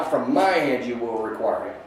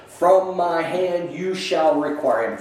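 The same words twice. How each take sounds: First: The word "my" leaned on, weighty and deliberate; stress on my. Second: Said in the usual way. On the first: Shown as a demonstration. Teacher showing the stress in Judah's pledge, "my" emphasized. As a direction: press hard on "my" in "From my hand". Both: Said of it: "the emphasis there is on my".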